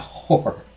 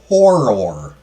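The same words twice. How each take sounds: First: The word is squeezed into one syllable. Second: The word is said with two syllables. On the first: The speaker calls it wrong. "Not horror" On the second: The speaker calls it right. "With two syllables"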